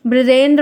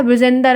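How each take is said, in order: First: ब्रजेंद्र with a tight "ndr" cluster, no extra vowel; ब्रजेंद्र as written, no inserted vowel; correct pronunciation. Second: ब्रजेंदर with a vowel pushed between "d" and "r"; ब्रजेंदर said colloquially as "-dar"; wrong pronunciation. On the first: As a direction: say ब्रजेंद्र crisply, ending in "-ndra". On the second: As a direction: stretch ब्रजेंदर into "bra-jen-dar". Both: Shown as a demonstration. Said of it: "ब्रजेंद्र को बढ़ाकर ब्रजेंदर".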